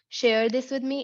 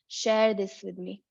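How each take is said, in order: First: 'Share' does not rhyme with 'chair'. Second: 'Share' rhymes with 'chair'. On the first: The speaker calls it wrong. "not share this with me" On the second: The speaker calls it right. "Rhymes with chair"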